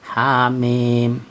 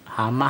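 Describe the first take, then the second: First: Each letter is said by its full name. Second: The letters are blended into one short word. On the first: The speaker calls it right. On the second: The speaker calls it wrong.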